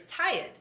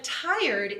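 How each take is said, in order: First: "tired" with the R dropped, Boston style; Boston pronunciation. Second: Said in the usual way. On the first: Shown as a demonstration. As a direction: say "tired" as "tie-id". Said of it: "tired is a telltale Boston word". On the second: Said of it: "is a telltale Boston word".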